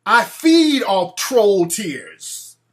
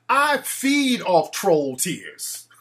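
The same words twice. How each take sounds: First: Slow, drawn-out vampire menace; slow, menacing vampire boast. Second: A gloating vampire, very slow. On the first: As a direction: play a gloating vampire, very slow. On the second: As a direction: savour each word like a vampire. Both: Pretend. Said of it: "I'm like a vampire".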